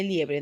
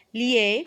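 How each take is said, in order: First: Said in the usual way. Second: LIE drawn out high and loud, long pause, BRE; split into syllables. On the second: Shown as a demonstration. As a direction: say "Liebre" in two separate syllables. ("Liebre" por sílabas: LIE... BRE) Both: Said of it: "cómo sería la división de sílabas".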